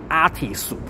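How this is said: It is said the Japanese way, ending in su. "just like the Japanese speak when they speak the English"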